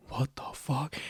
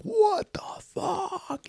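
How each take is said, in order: First: Breathy whispered what the fuck; whispered disbelief. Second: Very high, slow, wailing cry; crying out in shock. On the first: Stu waking up in space, whispering in shock. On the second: Stu seeing Earth from the pod, wailing in panic. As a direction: let it crack upward into a panicked wail. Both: Retold or imitated. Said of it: "He's like".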